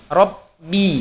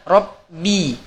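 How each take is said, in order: Both takes have the same delivery.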